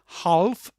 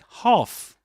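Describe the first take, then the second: First: The L sound is pronounced. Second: The L sound is silent. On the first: The speaker calls it wrong. "This is not half" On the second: The speaker calls it right. "but half"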